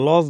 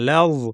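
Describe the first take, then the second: First: The L is heavy with a rounded vowel. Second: The L is light with an open vowel. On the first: The speaker calls it wrong. "লজ বলবো না, লজ না" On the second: The speaker calls it right. "লাম কিন্তু পাতলা লাগবে"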